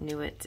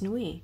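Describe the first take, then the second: First: The name ends with a clear t sound. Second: The name ends without any t sound. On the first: This is how the deck says it. "they pronounce it Nuit in this deck" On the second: This is how it is said in French. "in French, it's Nui"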